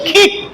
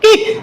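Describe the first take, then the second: First: The first sound is a breathy aspirated k. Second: The first sound is a plain unaspirated k. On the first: The speaker calls it right. "কিন্তু এটা সঠিক উচ্চারণ কি হবে কিক" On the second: The speaker calls it wrong. "আমরা পড়ছি কি কিক"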